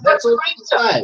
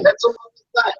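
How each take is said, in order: First: Said in the usual way. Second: Mocking high-pitched repeat. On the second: Real, not acted. To Richard, mocking, much higher.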